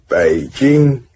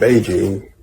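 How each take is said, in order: First: It is said with a Chinese accent. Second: It is said with an English accent. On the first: "native like pronunciation" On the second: "We call it Beijing"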